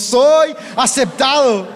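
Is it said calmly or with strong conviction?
strong conviction. It is said firmly, with strong conviction.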